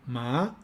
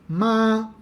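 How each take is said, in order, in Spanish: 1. El tono sube de medio a alto. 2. El tono se mantiene alto y plano. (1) "con un tono ascendente" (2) "con un tono alto"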